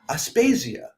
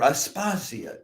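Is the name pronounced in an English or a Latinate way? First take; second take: English; Latinate. First: The name has an English-style pronunciation. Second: The name has a Latin-style pronunciation. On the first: "an English" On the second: "a Latinate pronunciation"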